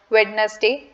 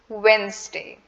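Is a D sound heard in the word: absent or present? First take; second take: present; absent. First: A D sound is pronounced in the middle. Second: No D sound is pronounced in the middle. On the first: The speaker calls it wrong. "We not do not pronounce it as Wednesday" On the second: The speaker calls it right. "The D in the word is completely silent"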